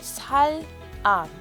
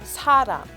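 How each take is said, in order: First: The two syllables are said separately, unlinked. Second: The final consonant carries over into the next syllable. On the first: "it's spelled sal-am" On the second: "it's pronounced saram"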